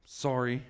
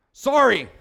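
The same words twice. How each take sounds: First: A softer, lower, sheepish sorry; mock sheepish kid's apology. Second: A quick, loud, offhand sorry; mock insincere kid's sorry, higher and louder; curt sorry. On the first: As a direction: mumble the apology with eyes down. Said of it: "he'll sheepishly". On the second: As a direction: toss off the apology without meaning it. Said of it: "Say it like you mean it".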